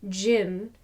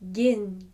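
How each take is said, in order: First: It begins with a soft J sound. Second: It begins with a hard, bright G sound. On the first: The speaker calls it wrong. "not jin, as in J sound" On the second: The speaker calls it right. "as the ending of begin"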